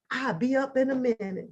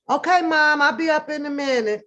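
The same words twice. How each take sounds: First: Lightly voiced sweetness; a hint of the good child; sweet compliant reply. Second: Higher, louder, sugary obedience; sweet compliant reply. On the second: Retold or imitated. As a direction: answer mom sweetly, all sugar. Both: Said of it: "just as sweet as I could sound".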